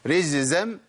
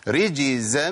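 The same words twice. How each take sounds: First: The middle consonant is a z sound. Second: The middle consonant is a j sound. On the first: The speaker calls it wrong. "الخطأ الثاني ان انا ابدلها بزاي" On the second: The speaker calls it right. "ادينا مثال"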